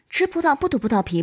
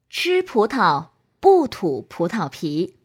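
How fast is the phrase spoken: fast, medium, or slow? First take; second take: fast; slow. First: The phrase is spoken at a fast speed. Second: The phrase is spoken at a slow speed. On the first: "快速" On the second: "慢速"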